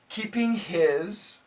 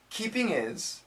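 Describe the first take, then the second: First: It is said slowly with the H in 'his'. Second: It is said quickly with the H in 'his' dropped.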